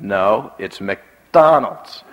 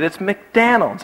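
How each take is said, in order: First: Very slow "McDonald's", open vowel in DON; insistent correction. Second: Higher, slower "McDonald's" said as "McDanald's"; imitated stubborn child saying "McDanald's" for "McDonald's"; child insisting wrongly. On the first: Retold or imitated. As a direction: stretch "McDonald's" out, standard, hard on DON. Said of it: "And I said". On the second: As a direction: insist on "McDonald's" with DON like "Dan". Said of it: "And he said".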